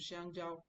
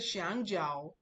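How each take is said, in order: First: The first syllable is on a high level pitch. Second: The first syllable is not on a high level pitch. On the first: It means banana. "because it's the first one" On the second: It is a different word. "That's a different thing I'm saying"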